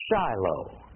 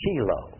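First: The name is said with an English pronunciation. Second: The name is said with a Hebrew pronunciation. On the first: "But Shiloh" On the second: "The Israelis pronounce it Shiloh"

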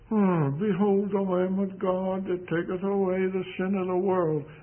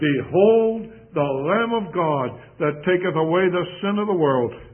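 First: It is said flatly, without enthusiasm. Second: It is said with excited enthusiasm.

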